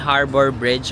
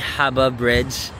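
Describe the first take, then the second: First: The first word is said as plain 'harbor'. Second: The first word is said as 'haba'.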